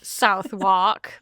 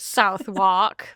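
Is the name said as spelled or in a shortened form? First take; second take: as spelled; as spelled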